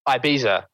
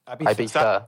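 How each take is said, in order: First: The middle consonant is a z sound. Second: The middle consonant is a th sound. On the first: "with a Z" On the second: "Or is Z is like TH, is th"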